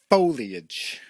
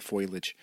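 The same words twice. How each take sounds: First: "Foliage" said as foh-lee-idge, a touch louder; correct pronunciation. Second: "foliage" said as foil-age, with an oi sound; wrong pronunciation. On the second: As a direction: mispronounce "foliage" as foil-idge. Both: Shown as a demonstration. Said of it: "Almost said foliage".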